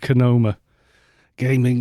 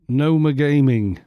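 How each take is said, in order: First: The name starts with a K sound. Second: The name starts with an N sound. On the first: "Could be Konoma Gaming" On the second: "I'm guessing the K is silent"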